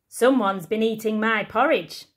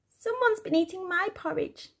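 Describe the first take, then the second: First: It is said in a big booming voice. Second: It is said in a squeaky little voice.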